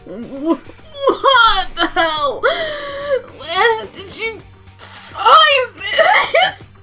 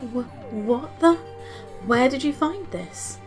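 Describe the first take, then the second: First: It is said in a strained, constipated voice. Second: It is said in a normal voice.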